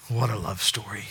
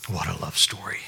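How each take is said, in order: First: Awed unvoiced whisper. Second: Said in the usual way. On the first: Preacher marveling to congregation, whisper. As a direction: whisper it in wonder.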